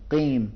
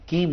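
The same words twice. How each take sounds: First: Thick heavy ق in قیم; demonstrating the correct قیم; correct heavy qaf. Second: کیم with a plain Urdu k from the front of the mouth; کیم said thin like an Urdu word; demonstrating the wrong کیم; wrong light k. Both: Shown as a demonstration. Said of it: "کیم نہیں پڑھیں گے".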